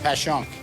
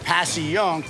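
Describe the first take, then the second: First: The name is said in a shortened form. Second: Every letter of the spelling is sounded out. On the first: This is how locals say the name. "We just call it Passyunk" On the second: This follows the written form of the name. "It's spelled Passy-Yunk"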